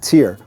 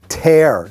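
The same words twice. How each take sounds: First: The word rhymes with ear. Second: The word rhymes with wear. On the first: The speaker calls it wrong. "not tear" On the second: The speaker calls it right. "You want to say tear"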